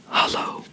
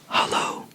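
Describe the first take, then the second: Both takes have the same delivery.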